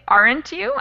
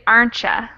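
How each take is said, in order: First: The second word is a full 'you'. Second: The second word is reduced to 'ya'. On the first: "instead of saying aren't you" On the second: "I'd say aren't ya"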